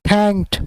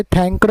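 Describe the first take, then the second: First: "thanked" as one syllable ending in a crisp t; "thanked" modelled in one beat, thankt; correct "thanked". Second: "thanked" wrongly split into two syllables, thank-ud; "thanked" misread as thank-ud; mispronounced "thanked". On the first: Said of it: "thanked पढ़ेंगे". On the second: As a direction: say "thanked" with an extra vowel after the k. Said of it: "इसे thanked नहीं पढ़ेंगे". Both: Shown as a demonstration.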